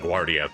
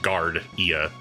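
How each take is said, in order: First: The first syllable sounds like 'gwar'. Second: The first syllable sounds like the word 'guard'. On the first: "I want to say Guardia because of like La Guardia" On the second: "it looks like it's just Guard Ia"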